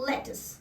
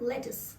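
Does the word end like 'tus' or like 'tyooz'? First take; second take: tus; tus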